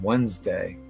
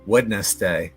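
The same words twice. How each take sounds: First: The D is silent, like 'wenz-day'. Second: The D is pronounced, like 'wed-nes-day'. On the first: "the D's kind of silent uh, as far as I'm concerned" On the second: "do you actually pronounce it phonetically?"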